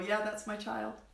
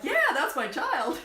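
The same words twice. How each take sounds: First: It is said in a flat, monotone voice. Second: It is said in a lively, proud voice. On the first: The parents say it with resignation. "she had a very monotone voice" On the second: The parents say it with pride. "She has voice inflections"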